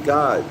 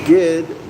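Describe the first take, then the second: First: The middle vowel is an O sound. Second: The middle vowel is an I sound. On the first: "G O D" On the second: "G I D"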